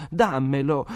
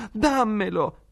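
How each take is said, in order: First: Put-on higher, louder child's demand; spoiled boy reaching out and demanding; spoiled sick boy demands the piglet; demanding shout. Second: Put-on much higher, louder spoiled child's shriek; a spoiled boy screaming for what he wants; sick son screams at his mother for the piglet; shrieking demand. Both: A narrator's reading. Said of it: "tese le braccia gridando".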